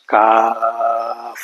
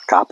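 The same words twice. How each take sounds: First: Long held "কাফ" finishing on an f; f at the end. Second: Short "কাপ" ending in a p sound; wrong pronunciation. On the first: Teacher correcting the mistake, long "কাফ" with final f. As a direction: stretch the aa of "কাফ", then release into f. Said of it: "শেষে ফয়ের উচ্চারণ হবে।". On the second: Teacher showing the class's old mistake, short "কাপ" with p. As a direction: say "কাপ" short, closing the lips on p. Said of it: "কাপ হলো ভুল।". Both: Shown as a demonstration.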